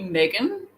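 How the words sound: The name is said in an American accent.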